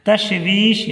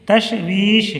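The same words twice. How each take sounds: No difference in how they are said.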